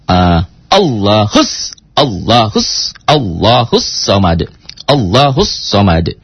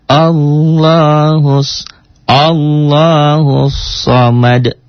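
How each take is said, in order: First: Allahus Samad with a hard jerk on hus; jerked drill. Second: Sung, very slow melodic Allahus Samad, drawn out; sung, finished recitation. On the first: Teacher drills the jerk so the beat sets in. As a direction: strike Allahus Samad in short jerks. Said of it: "Kok nyentak? Latihan". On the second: Sung, teacher shows the recitation once the beat sits. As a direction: chant Allahus Samad long and smooth. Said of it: "Kalau sudah bagus". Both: Shown as a demonstration.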